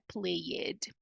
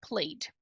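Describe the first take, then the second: First: An extra vowel is sounded before the final D. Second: It is one syllable with no vowel before D. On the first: The speaker calls it wrong. "Não é played" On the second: The speaker calls it right. "o que nós temos aqui é a ausência desse E"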